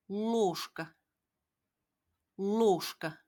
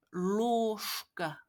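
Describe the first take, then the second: First: Ложка with ш sound before к; Russian word demo. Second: Ложка again with ш before к; repeat demo. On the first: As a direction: say ложка as losh-ka. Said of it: "쉐까로 발음됩니다". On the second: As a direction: model ложка as losh-ka. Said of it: "쉐로 발음하셔야". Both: Shown as a demonstration.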